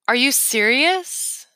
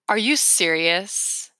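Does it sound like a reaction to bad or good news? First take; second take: good news; bad news. First: It sounds like a reaction to good news. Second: It sounds like a reaction to bad news.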